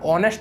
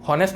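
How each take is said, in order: First: The word begins with a vowel sound. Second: The word begins with an h sound. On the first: The speaker calls it right. "ऑनेस्ट बोलते हो" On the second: The speaker calls it wrong. "हॉनेस्ट नहीं बोलते ना"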